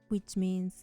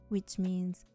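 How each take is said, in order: No difference in how they are said.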